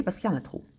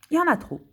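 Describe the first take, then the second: First: Said in the usual way. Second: "Il y en a trop" pushed higher and louder; emphatic. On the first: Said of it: "plain answer before emphatic repeat". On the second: Real, not acted. Insisting to viewers, emphatic repeat. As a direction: hit "trop" hard with a jump up. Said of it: "repeated for emphasis".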